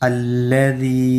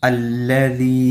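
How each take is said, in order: Both takes have the same delivery.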